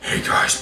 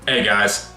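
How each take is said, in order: First: It is said in a Batman impression voice. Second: It is said in his normal voice.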